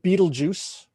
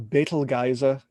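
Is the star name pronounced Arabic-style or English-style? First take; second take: English-style; Arabic-style. First: The name is said the common English way. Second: The name is said the Arabic way. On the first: This is how most people say it. "everybody calls it Betelgeuse" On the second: This follows the original Arabic. "if you pronounce it properly in Arabic"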